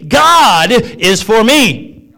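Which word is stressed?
god. The stress falls on the word God.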